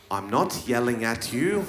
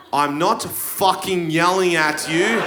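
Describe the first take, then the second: First: Lower, much softer, laughing; quiet denial. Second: Exasperated, punching "fucking"; irritated denial. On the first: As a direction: murmur it meekly. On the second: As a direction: snap the denial back. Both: Shown as a demonstration.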